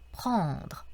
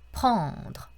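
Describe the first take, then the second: First: The final r is light and barely heard. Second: The final r is light and barely heard.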